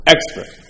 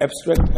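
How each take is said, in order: First: "Extract" said firmly after correction; the corrected "Extract", a touch higher; corrected word. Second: Says "abstract" instead of "extract", rising; "abstract" with a questioning rise; the mistaken "abstract" before being corrected; wrong word. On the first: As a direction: settle on "Extract" as the right word. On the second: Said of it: "abstract, you say?". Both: Shown as a demonstration.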